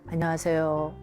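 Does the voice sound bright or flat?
flat. The voice is low and flat. The speaker calls it wrong. "이거보다"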